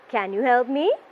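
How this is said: The voice goes up at the end. The asker really wants help. The speaker calls it right. "your voice should go up towards the end of your question"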